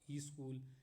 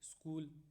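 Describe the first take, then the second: First: A short i vowel is added before sk. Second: The sk cluster is said with no added vowel.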